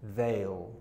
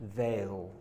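First: The words are merged into one syllable. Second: The words are merged into one syllable.

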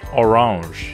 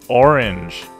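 First: The word is pronounced with French sounds. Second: The word is pronounced with English sounds. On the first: "or orange" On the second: "it's orange"

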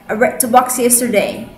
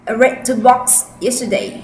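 No difference in how they are said.

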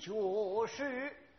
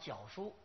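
First: It is pronounced in the old operatic rhyme. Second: It is pronounced in standard Mandarin. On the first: "但是这是上韵" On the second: "这个我们的念普通话是绞书"

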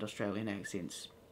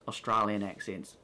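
First: It is said in a New Zealand accent. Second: It is said in a mock Australian accent.

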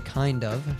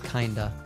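First: It is said as two full, separate words. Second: It is reduced and blended into one word. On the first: "she doesn't say kind of" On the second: "she says kinda. Almost always reduced in our speech"

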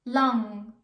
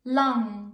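Both takes have the same delivery.

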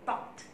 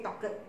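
First: The word is said as one syllable. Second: The ending is said as a separate syllable. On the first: The speaker calls it right. "Then you put talked" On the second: The speaker calls it wrong. "Don't say talked"

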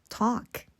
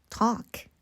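No difference in how they are said.

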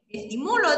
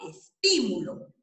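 First: The stress is on the third syllable, mu. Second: The stress is on the second syllable, ti. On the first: It is a present-tense verb form. "la sílaba tónica la hago en mu" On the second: It is a noun. "la puedo convertir en esdrújula"

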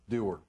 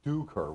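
First: The name has no k sound in it. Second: The name has a k sound in the middle. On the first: This is how the speaker says his own name. "So it's Doer" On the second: This is how it is said in Ireland. "over in Ireland, they'd actually pronounce it Duker"

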